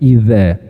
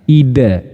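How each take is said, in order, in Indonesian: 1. Konsonan di tengah adalah bunyi z yang ringan. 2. Konsonan di tengah adalah bunyi d yang ditekan. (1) "kalau zal itu cenderung lebih eh, halus, apa cenderung lebih ringan bunyinya" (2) "kalau dal itu cenderung lebih neken bunyinya"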